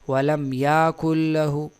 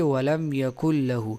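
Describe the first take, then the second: First: The vowel after the y is long. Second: The vowel after the y is short. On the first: The speaker calls it wrong. "बाज लोग पढ़ते हैं वलम याकुल लहू" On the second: The speaker calls it right. "या के साथ अलिफ नहीं बल्कि वलम यकुल लहू"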